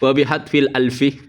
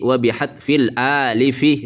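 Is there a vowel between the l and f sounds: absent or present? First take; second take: absent; present. First: The last word is said as alfi, without a vowel. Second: The last word is said as alifi, with a vowel. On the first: The speaker calls it wrong. "Itu bukan alfi, Pak, itu alif" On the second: The speaker calls it right. "itu alif. Jadi wa bihadfil alifi, begitu"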